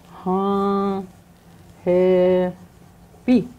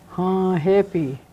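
First: "Ha happy" split into long, separate syllables; drawn-out teaching "Ha", gap, then "happy"; syllable breakdown. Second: Said in the usual way. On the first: Shown as a demonstration. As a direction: sound out "Ha happy" slowly, pausing after "Ha".

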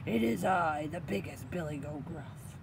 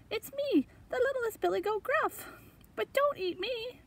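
First: Big goat's solid, unraised voice; weighty storybook goat. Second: Very high, tiny goat voice; little kid goat in high pitch; littlest goat. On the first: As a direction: announce it as the biggest goat. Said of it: "said in a big voice". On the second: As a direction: squeak it out as a small pleading goat. Littlest goat pleads with troll. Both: Acted.

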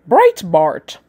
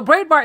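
First: Put-on British accent, set apart by a pause. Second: Said in the usual way. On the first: Shown as a demonstration. Host pronouncing the paper's name as Googled, British accent. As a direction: say Breitbart with a mock British accent. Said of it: "I got it pronounced in a British accent". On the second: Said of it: "So that's what I'm rolling with".

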